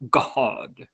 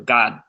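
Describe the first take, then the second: First: God is drawn out with extra vowels, preacher-style. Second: God is said bluntly with a short, rough vowel.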